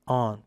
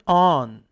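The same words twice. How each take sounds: First: "on" said with a closed O, like "own"; wrong vowel. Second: "on" said with an open "ah"; correct vowel. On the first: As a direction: mispronounce "on" as "oon". ("on"을 '오운'으로 틀리게 발음) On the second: ("on"을 '안'처럼 열어서 발음) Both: Shown as a demonstration. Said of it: "발음은 on이 아니라".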